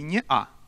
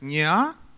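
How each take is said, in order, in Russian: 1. Гортанная смычка разделяет две гласные. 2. Гласные идут слитно, без гортанной смычки. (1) "можно сказать и «неа». И в принципе это, ну, как-то правильнее считается" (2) "некоторые его произносят как «неа»"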